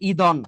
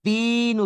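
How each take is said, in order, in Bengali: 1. ই-কার দ-এর আগে উচ্চারিত হয়। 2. দ ই-কারের আগে উচ্চারিত হয়। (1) "আপনি যদি ই কে আগে উচ্চারণ করেন তাহলে এটার উচ্চারণ হবে ইদন" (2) "এটাকে আমরা দিন উচ্চারণ করি, আগে দ উচ্চারণ করি"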